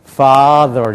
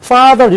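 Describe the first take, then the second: First: "father" slow, first vowel held long; English-style vocalization. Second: "father" punched high in a Korean accent; Korean-accented English. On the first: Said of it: "이렇게 읽어요". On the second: Teacher showing what to avoid, "father" Korean-accented. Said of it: "이렇게 읽으면 안 된다는 거". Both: Shown as a demonstration.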